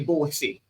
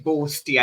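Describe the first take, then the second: First: The word is said without a t sound. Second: The word is said with a t sound. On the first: This is the form locals actually use. The speaker calls it right. "we'd say bossy" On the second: This is the form spelled for outsiders. The speaker calls it wrong. "we wouldn't say boasty. I know Donna Heman spelt it with a T"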